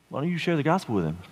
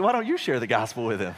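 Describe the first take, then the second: First: Offhand suggestion to a spouse; evenly stressed, easy suggestion; casual nudge. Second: YOU pitched up, turning it back; stress on YOU. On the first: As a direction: toss it out as a gentle prod. Nudging his wife to do it. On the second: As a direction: hit the word YOU, then drop away. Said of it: "She's like". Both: Retold or imitated.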